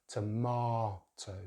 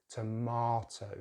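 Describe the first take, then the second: The two takes are said the same way.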